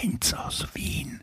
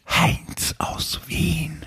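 First: It is said quietly. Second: It is said a bit louder.

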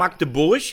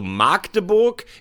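First: The first vowel A is short. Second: The first vowel A is long. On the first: The speaker calls it right. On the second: The speaker calls it wrong.

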